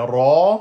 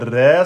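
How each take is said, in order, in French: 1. La syllabe ra est lourde et emphatique. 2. La syllabe ra est légère et fine. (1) "ra fatha emphatique" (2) "c'est pas ra"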